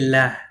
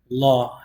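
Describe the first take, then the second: First: The L sound is light and thin. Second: The L sound is heavy and full. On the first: It follows a kasra vowel. "If there's a kasra, you say it lightly" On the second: It follows a dhamma vowel.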